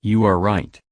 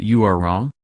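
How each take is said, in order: First: "You" stressed, "are right" lighter. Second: "you" pushed, a questioning rise on "wrong"; stress on YOU. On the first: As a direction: lean on "You" and say the rest plainly. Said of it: "which words are content words and should be stressed". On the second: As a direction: hit "you" to say it is your belief but wrong. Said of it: "what sentence implies that this is your belief". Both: Shown as a demonstration.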